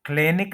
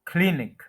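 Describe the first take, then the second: First: क्लिनिक as "KLAY-nik"; common mispronunciation. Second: क्लिनिक as "KLIN-ik", first syllable stressed; correct pronunciation. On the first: Teacher warning against the wrong form, mispronounced. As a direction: stretch the first vowel of क्लिनिक to "ay". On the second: Teacher giving the corrected form, careful pronunciation. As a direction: hit a short "klin" in क्लिनिक. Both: Shown as a demonstration. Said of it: "क्लिनिक नहीं कहेंगे इसको".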